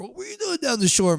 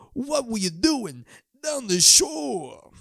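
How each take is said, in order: First: Said in the usual way. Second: Much higher, slow drawn-out yell; mock shout. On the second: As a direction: stretch the question out like a stadium call. Brother to brother, calling out.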